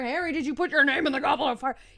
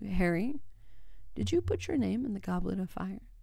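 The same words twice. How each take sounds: First: The line is shouted loudly. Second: The line is said quietly.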